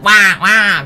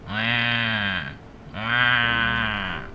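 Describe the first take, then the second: First: It is said loudly with lively energy. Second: It is said quietly with little energy. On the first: The creature normally feels lively. "very energetic" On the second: The creature is worn out by the heat. "Now it's just"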